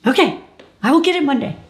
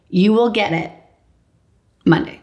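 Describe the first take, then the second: First: Higher, loud, mechanical echo of will and Monday; dazed echo. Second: Said in the usual way. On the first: Retold or imitated. Patient echoes the nurse, dazed and high. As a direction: parrot it back in a daze.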